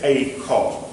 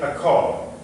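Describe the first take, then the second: First: It is said slowly with a full 'a'. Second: It is said quickly with a reduced 'a'. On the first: "if you're speaking more slowly and carefully, you'll tend to say" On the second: "when you are speaking quickly, you'll normally say"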